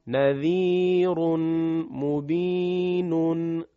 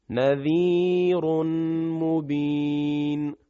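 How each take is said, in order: First: مبین said as مبینٌ with the -un ending, slow; connected reading. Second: مبین stopped on a silent ن, sung; pausal form. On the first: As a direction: read نذیر مبین joined, keeping the tanwin. (نذیرٌ مبینٌ با تنوین در وصل) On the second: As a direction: stop on مبین dropping the tanwin. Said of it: "بعد به صورت وقف". (وقف روی مبینْ بدون تنوین) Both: Shown as a demonstration.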